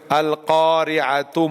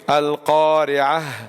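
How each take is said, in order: First: The word ends with a t sound plus vowel. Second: The word ends with an h sound. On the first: The speaker carries on without stopping. "We are saying the ta and ignoring the ha" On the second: The speaker comes to a full stop. "Ta is gone"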